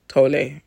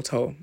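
First: Tolle said in two syllables, TOH-lay; two-syllable pronunciation. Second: Tolle said as one syllable, like "toll"; one-syllable pronunciation. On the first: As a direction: end Tolle on a clear "lay" sound. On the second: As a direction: drop the final e of Tolle, softly. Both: Shown as a demonstration. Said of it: "I don't know how to pronounce".

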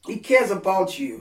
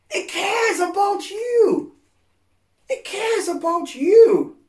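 First: Said in the usual way. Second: Much higher, louder, slow and crying; tearful preaching shout. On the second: Real, not acted. Preacher pleading to the hurting that He cares, tearful shout. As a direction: cry it out from the heart, slowly.

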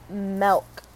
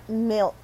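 First: "milk" said with an E, like "melk"; hometown pronunciation. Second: "milk" with a short I, as in "silk"; standard pronunciation. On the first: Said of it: "M E L K is literally how it's pronounced". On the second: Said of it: "it's milk, not milk". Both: Shown as a demonstration.

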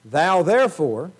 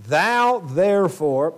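First: THOU therefore, slow, louder and rising; emphatic thou therefore. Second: THOU therefore, very slow, louder; emphatic thou therefore. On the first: Preacher reading Paul's charge, slow emphatic stress. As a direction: drag out "Thou therefore" with weight. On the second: Preacher re-reading the charge to Timothy, slow and weighty. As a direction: lean on each word of "Thou therefore". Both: Shown as a demonstration. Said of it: "thou is emphatic".

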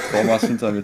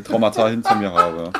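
First: Says Traumas with a laugh, then catches it; Traumas, wrong plural, said laughing. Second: Traumata, corrected plural, said laughing. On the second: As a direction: fix it to Traumata, still chuckling. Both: Real, not acted.

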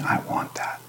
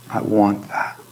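First: A longing, whispered plea; desperate whisper. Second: Said in the usual way. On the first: Acted. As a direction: breathe it out, pleading, in a whisper. Desperate plea voiced in prayer.

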